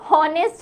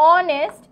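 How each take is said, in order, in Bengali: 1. শব্দটি h ধ্বনি দিয়ে শুরু হয়। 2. শব্দটি স্বরধ্বনি দিয়ে শুরু হয়। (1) "হ উচ্চারণ হলে সেটা কিন্তু হনেস্ট হতো" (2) "বাট বোঝা যায় না, আমরা উচ্চারণ করি না"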